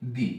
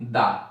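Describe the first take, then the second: First: The word ends in a long 'ee' vowel. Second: The word ends in a short 'uh' vowel. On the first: The next word begins with a vowel. "T H E এর পরে আছে vowel, তাহলে এর উচ্চারণ হবে দি" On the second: The next word begins with a consonant. "T H E এর পরে consonant আছে, তাহলে এটা উচ্চারণ হবে দা"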